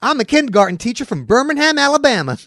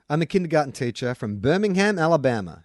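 First: It is read in a Southern American accent. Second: It is read in the speaker's normal accent.

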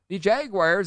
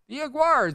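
First: The word begins with a clear J sound. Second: The word begins without any J sound.

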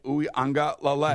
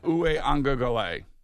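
First: The last part sounds like 'lale'. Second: The last part sounds like 'gale'. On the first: The speaker calls it right. "Nailed it" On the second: The speaker calls it wrong. "Not Gale, Lele"

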